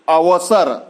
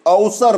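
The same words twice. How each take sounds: First: The word begins with the sound av. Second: The word begins with the sound au. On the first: The speaker calls it right. "अव" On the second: The speaker calls it wrong. "औ बोल जाते हैं"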